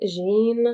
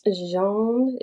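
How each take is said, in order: First: Trying out "Jean" to rhyme with "bean"; "Jean" said zheen. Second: "Jean" said the French way, zhon; trying out "Jean" as French zhon. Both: Shown as a demonstration. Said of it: "get the proper pronunciation".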